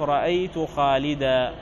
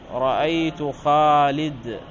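First: The last word ends in a long a vowel. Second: The last word ends in a silent consonant. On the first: This is the pause form most Arabs use. "فتقول عند الوقف رأيت خالدا" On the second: This is the pause form one tribe uses. "هكذا بدون ألف وبسكون الحرف الأخير"

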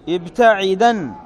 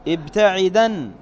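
The two takes are said the same way.

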